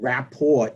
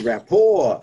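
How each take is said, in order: First: The final T is clearly sounded. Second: The final T is silent. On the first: The speaker calls it wrong. "it's not rapport" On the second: The speaker calls it right. "but it's a silent T for the French word"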